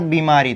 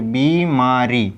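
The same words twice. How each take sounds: First: बीमारी run together, vowels kept brief; ordinary quick reading. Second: बीमारी slowly as बी, मा, री; long ī. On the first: Teacher reading out the misspelt word, quick बीमारी. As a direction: say बीमारी straight through, unstretched. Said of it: "बीमारी में भी हम लोग क्या कर देंगे". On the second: Teacher spelling the correction for students, slow बीमारी. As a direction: stretch the बी and री of बीमारी. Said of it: "इस तरीके से बीमारी". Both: Shown as a demonstration.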